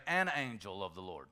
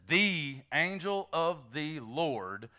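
First: "An" said lower and softer, falling; stress on AN. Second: "The" drawn out slowly with a rise; stress on THE. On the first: Preacher contrasting the indefinite article, lower "An". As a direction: set "An" against "The", quiet and falling. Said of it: "oftentimes it'll say". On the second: Preacher teaching the definite article, stressing "The". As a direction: lean hard on the word "The" in "The angel". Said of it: "the definite article is the word "the". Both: Shown as a demonstration.

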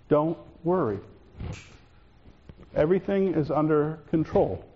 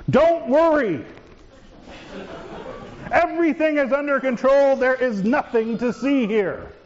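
First: Lower, soft, steady "Don't worry" and "Everything is under control"; calm, clear voice. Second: Nervous reassurance. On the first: Shown as a demonstration. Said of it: "said in a calm, clear voice". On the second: Acted. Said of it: "Not always the most calming of statements".

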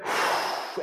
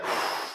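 First: Demonstrated steadying exhale; anticipatory sigh. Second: Demonstrated relieved exhale; sigh of relief. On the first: Preacher imitates basketball player preparing a free throw, anticipatory sigh. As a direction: act a player's breath out before the shot. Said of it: "sigh of anticipation, like when a basketball player". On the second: Preacher imitates player watching the ball drop, relieved sigh. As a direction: act a player letting the breath go after the shot. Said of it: "was a sigh of relief, like when the player". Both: Shown as a demonstration.

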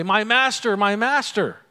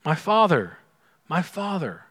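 First: Wrong cry. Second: Tender cry. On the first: Elisha crying out to his master, raised voice. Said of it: "He doesn't say". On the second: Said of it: "What does he say?". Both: Retold or imitated.

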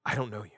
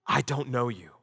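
First: Softer, lower echo of the verdict; hushed repeat. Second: Solemn verdict. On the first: Jesus repeats his rejection to the false followers, hushed. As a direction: let the sentence fall away into a hush. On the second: Jesus tells the false followers on judgment day, grave. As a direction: hand down the sentence with weight. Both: Acted.

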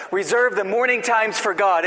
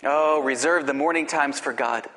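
First: "Reserve the morning times for God" louder and higher, with weight on "reserve"; emphatic restatement. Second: Said in the usual way. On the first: Shown as a demonstration. Preacher to pastors, pressing the point with a raised, emphatic voice. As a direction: drive home "reserve", raised and ringing. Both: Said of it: "What's he saying?".

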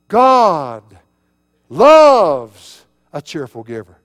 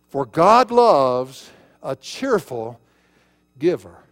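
First: "God" and "loves" each boomed out alone; huge drawn-out emphasis on "God" and "loves"; stress on God loves. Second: Slow verse reading, leaning on "cheerful"; emphasize "cheerful", setting "giver" apart; stress on cheerful. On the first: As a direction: shout "God", pause, shout "loves", then drop away. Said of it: "emphasis of the verse is not the cheerful giver". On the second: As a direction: draw out "cheerful", then pause before "giver". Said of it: "put the emphasis on cheerful". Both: Shown as a demonstration.

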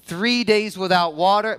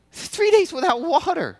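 First: Said in the usual way. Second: "Three days without water" higher, stress on "days"; emphatic repeat. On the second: Real, not acted. Pastor pressing the point to the congregation, stressing "days". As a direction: lean hard on "days" to make it sink in.

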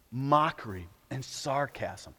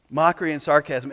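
First: Softly, slowly, letting it sink in; hushed and slow. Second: Said in the usual way. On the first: Shown as a demonstration. Preacher to congregation, naming the enemy, hushed and slow. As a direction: drop the voice, weighty and slow. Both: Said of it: "repeated for effect".

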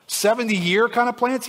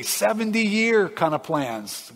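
First: Higher, questioning "Seventy-year kind of plans". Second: Slow, falling "Seventy-year kind of plans"; confirming. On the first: Listener checking God's timeline, higher questioning voice. Acted question, confirmed right after. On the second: God confirming the timeline to listener, slow and conclusive. Acted answer confirming the question. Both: Acted.

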